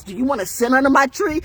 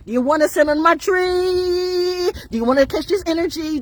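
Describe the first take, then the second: First: Said in the usual way. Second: High, stretched-out challenge on TREE. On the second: Acted. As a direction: hold TREE long and high. Repeats question as drawn-out taunt.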